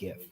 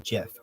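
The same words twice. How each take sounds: First: The word begins with a hard G sound. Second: The word begins with a soft J sound. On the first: The speaker calls it right. "it's actually graphical image format" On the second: The speaker calls it wrong. "like the peanut butter"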